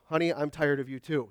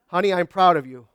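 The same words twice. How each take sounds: First: Husband's tired comeback; a grumpy dry reply; husband's mishearing, flat. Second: Louder, fond wife's line; wife's praise, louder. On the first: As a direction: mumble it back like he didn't really hear. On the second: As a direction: say it up and bright, meant kindly. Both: Shown as a demonstration. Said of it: "when you're not listening".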